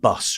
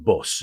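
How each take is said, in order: First: It is said in a southern English accent. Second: It is said in a non-southern local accent. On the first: This is how the speaker said it as a child. "and bus rather" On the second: This is how the other children said it.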